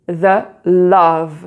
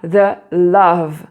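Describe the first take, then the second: No difference in how they are said.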